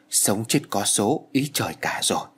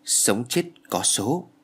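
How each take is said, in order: First: Slow, weighed final words; slow fatalistic verdict. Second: Sống chết có số repeated slowly, stunned; slow bitter echo. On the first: Old shaman slowly tells the mother her child's fate, grave. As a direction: let Sống chết có số fall like a verdict, slowly. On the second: Stunned mother slowly repeats the shaman's verdict, bitter. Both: A narrator's reading.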